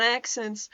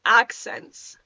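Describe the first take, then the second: First: "accents" slipping out the odd way; unguarded, oddly voiced "accents"; slipped pronunciation. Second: "accents" carefully corrected, a touch lower; deliberate, careful "accents"; corrected pronunciation. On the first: Real, not acted. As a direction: let "accents" come out with the accidental weird vowel. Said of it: "did it again". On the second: Shown as a demonstration. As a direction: say "accents" again with the vowel fixed. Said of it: "did it again, about accents".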